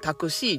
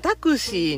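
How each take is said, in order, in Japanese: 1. 最後の音節で上がる。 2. 最後の音節では上がらない。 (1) "関西弁で言ったらタクシーですよね。C が上がるんですよね。" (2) "私インドネーションタクシー"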